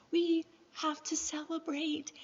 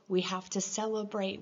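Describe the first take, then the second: First: High-pitched imitation of a cheerful neighbor; imitating Joanne. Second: Said in the usual way. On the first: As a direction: mimic the neighbor's insistent glee. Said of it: "get across how Joanne was". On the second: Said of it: "She was saying".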